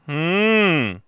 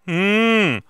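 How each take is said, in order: First: The hum sits forward at the front. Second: The hum sits forward at the front.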